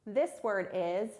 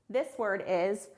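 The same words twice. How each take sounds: The two takes are said the same way.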